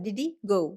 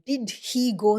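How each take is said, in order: First: The first two words run together as one. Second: Each word is said separately and carefully. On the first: "കുറച്ച് simple ആയിട്ട് പറയാം" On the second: "ഇത്ര കഷ്ടപ്പെട്ട് പറയണ്ട"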